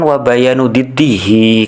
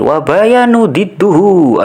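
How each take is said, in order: First: The last word ends with an i vowel. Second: The last word ends with a u vowel. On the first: The speaker calls it right. "mestinya kan" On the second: The speaker calls it wrong. "kepleset lagi ya, sabkulisan lagi"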